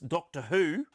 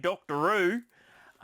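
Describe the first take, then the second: First: It is said in a neutral accent. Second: It is said in a broad Australian accent.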